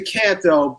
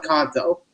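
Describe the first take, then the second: First: "Canto" said CAN-toe; American short A in "Canto"; "Canto" with the A of "can't"; short-A pronunciation. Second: "Canto" said KAHN-toe; open-A pronunciation. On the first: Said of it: "we both pronounce it". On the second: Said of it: "they call it". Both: Shown as a demonstration.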